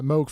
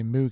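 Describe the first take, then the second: First: The name is said a different, non-English way. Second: The name is said the usual English way. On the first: The speaker calls it right. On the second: The speaker calls it wrong.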